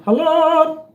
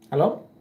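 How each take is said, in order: First: Loud high call of "Hello?"; loud, high "Hello?" into the mic. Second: Said in the usual way. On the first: Real, not acted. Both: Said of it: "mic test calls".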